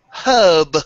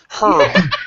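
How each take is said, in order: First: The R sound is dropped from the word. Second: The R sound is clearly pronounced in the word.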